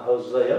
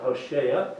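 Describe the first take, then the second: First: "Hosea" said ho-ZAY-uh; Hosea with Z sound. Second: "Hoshea" said ho-SHAY-uh; Hoshea with SH sound. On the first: Telling two names apart, "Hosea" with a z sound. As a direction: say "Hosea" with a z in the middle. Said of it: "the last king is Hoshea". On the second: Correcting to the last king's name, "Hoshea" with sh. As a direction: say "Hoshea" with a sh in the middle. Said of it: "not Hosea". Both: Shown as a demonstration.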